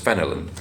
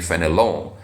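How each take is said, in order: First: The name is said with an English pronunciation. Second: The name is said with a French pronunciation. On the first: "let me pronounce it the English way, which is phenolin" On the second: "the French pronunciation, which is probably fenelon"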